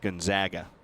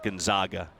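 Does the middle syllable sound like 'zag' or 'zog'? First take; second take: zag; zog. First: The middle syllable sounds like 'zag'. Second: The middle syllable sounds like 'zog'. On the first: The speaker calls it right. "it's Gonzaga, they're the Zags" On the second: The speaker calls it wrong. "It's not Gonzaga, They're not the Zogs"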